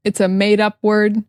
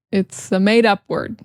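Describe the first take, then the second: No difference in how they are said.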